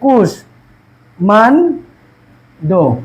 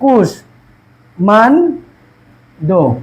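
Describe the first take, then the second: First: The word is split by pauses between syllables. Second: The word is split by pauses between syllables.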